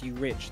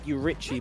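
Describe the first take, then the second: First: The name ends without an extra syllable. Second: The name ends with an extra 'ee' syllable. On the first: The speaker calls it right. "but it's pronounced you Rich" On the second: The speaker calls it wrong. "I said you Richie"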